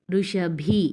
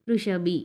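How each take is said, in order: First: ఋషభి with a strong, breathed final bhi; firm aspirated bh. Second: ఋషభి ending in a simple short bi, no puff; plain unaspirated b. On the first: Teacher shows children the difference, aspirated bh. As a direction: hit the bhi of ఋషభి with a puff of air. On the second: Teacher shows children the difference, unaspirated b. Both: Shown as a demonstration. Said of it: "అర్థమవుతుందా తేడా".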